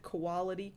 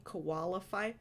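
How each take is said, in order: First: Put-on "quality" said as the old wrong version of qualify; wrong pronunciation. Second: "qualify" said carefully, ending in -fy; corrected pronunciation. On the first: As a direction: say "quality" in place of qualify, the habitual mistake. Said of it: "everyone was saying I was saying it wrong". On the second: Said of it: "I've been training myself". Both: Shown as a demonstration.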